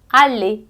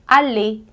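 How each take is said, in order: Both takes have the same delivery.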